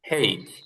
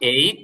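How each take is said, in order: First: The letter name begins with an h sound. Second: The letter name begins with a vowel sound. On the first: "আর একটা হচ্ছে হেই" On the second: "এইচ একটা উচ্চারণ"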